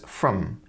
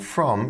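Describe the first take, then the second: First: The word has a weak, reduced vowel. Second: The word has a full, clear vowel. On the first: "she uses a weak form of the word from" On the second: "instead of saying from"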